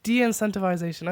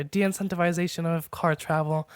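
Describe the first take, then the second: First: Said in the usual way. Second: De-incentivization with the I in -vai- leaned on; a touch of British accent on De-incentivization; stress on the I. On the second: Shown as a demonstration. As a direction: hit the I in De-incentivization. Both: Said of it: "Put the emphasis on the I".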